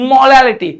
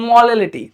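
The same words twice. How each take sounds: First: Said in the usual way. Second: Put-on "molality" said playfully like a toddler as "olelity", dropping the m; a light, mock childish lisp on "molality"; lisping baby talk. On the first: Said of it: "इसको तोतला के बोलूं". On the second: Shown as a demonstration. Teacher joking to students, saying "molality" in mild baby talk. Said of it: "molality को तोतला के बोलूं".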